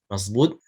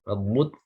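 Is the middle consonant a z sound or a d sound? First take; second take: z sound; d sound. First: The middle consonant is said as a z sound. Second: The middle consonant is said as a d sound. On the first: The speaker calls it wrong. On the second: The speaker calls it right.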